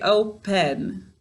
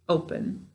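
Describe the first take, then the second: First: The second vowel is said fully and clearly. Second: The second vowel is reduced and weak. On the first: This is how the word is said to help spell it. "to spell it, we say open" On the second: This is how the word is said in normal speech. "when we're speaking, we say open"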